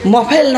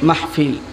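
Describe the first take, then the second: First: Said as 'mofel', with no h sound. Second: Said as 'mahfil', with a clear h sound. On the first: The speaker calls it wrong. "মাহফিল না তো মফেল হয়" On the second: The speaker calls it right. "মফেল নাকি মাহফিল? মাহফিল।"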